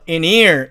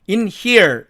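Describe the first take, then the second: First: The h sound in here is dropped. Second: The h sound in here is pronounced. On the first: This is how it sounds in natural speech. "이 H가 사라져서 in here 이렇게 발음된다" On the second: This is the dictionary pronunciation. "사전식으로 읽으면 in here 이렇게 되죠"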